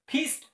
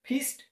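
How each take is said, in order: No difference in how they are said.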